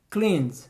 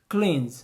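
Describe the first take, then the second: The two takes are said the same way.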